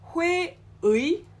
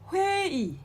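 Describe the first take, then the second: First: The second vowel is the full 'ui' glide. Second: The second vowel is a plain 'i'. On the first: The speaker calls it wrong. "it's not" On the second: The speaker calls it right. "we pronounce it as 이"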